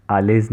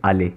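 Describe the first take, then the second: First: आलेज said with the final z sounded; आलेज, ending pronounced wrongly on purpose; wrong reading shown. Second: आले said "aa-lay", final z silent; आले with no sound at the end; right French reading. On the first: Teacher warning students off the wrong way, आलेज with sounded z. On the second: Teacher showing students the right way, आले with silent ending. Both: Shown as a demonstration. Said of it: "आलेज नहीं पढ़ा जाएगा".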